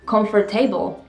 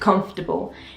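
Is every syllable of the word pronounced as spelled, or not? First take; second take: pronounced; not. First: Every syllable is pronounced as it is spelled. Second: It is not pronounced syllable by syllable as spelled. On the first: This is how the spelling suggests it should be read. "the way it's written, it should be read comfortable" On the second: This is the pronunciation taught in school. "The way they taught me is to pronounce it comfortable"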